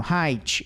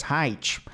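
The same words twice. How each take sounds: First: Height said "ráitchi" like Portuguese; mock spelling pronunciation. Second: Height said flat "ráitch", Portuguese style; mock spelling pronunciation. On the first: Teacher mimics coach's spelling-based English, mock. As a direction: height read as written, with a Portuguese "tchi" ending. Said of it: "Qual que que ele tá falando?". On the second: Teacher mimics the coach again, understated. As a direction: height with a "tch" ending, no English vowel. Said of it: "É assim que fala em português".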